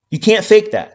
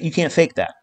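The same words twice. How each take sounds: First: Emphatic loud repeat. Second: Said in the usual way. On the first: Real, not acted.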